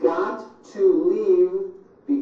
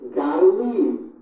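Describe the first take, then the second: First: Each word is said separately and in full. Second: The words are squeezed together into reduced sounds.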